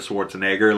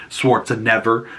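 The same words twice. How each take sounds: First: Said in the usual way. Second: Schwarzenegger ending in "never"; punning mispronunciation. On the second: Shown as a demonstration. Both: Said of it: "So instead of Schwarzenegger".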